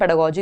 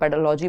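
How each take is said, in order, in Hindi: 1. तीसरा syllable G sound से शुरू होता है। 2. तीसरा सिलेबल L साउंड से शुरू होता है। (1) "बोलना कैसे है तो हम पेडागोजी इसको बोलेंगे" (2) "लॉजी बोला जा नहीं सकता क्योंकि एल इसमें कहीं एल का साउंड है नहीं"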